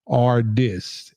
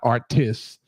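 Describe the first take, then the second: First: The middle consonant is a D sound. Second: The middle consonant is a T sound. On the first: The speaker calls it right. "A R D I S" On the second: The speaker calls it wrong. "not Artis"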